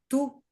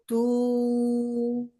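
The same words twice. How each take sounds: First: The sound is cut off very quickly. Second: The sound is held for a long time. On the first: "Ou se ele é curto" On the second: "Se ele é longo"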